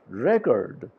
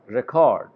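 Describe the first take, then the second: First: The stress is on the first syllable. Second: The stress is on the second syllable. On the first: It is used as a noun. "here the stress is on ra sound" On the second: It is used as a verb. "it's a caw sound where the stress is there"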